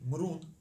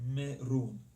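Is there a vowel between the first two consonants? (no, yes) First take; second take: no; yes. First: The first two consonants run together without a vowel. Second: A short vowel separates the first two consonants. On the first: The speaker calls it wrong. "You would not say" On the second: The speaker calls it right. "you would say"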